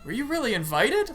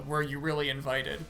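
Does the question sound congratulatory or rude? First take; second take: congratulatory; rude. First: It sounds warm and congratulatory. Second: It sounds rude and doubting.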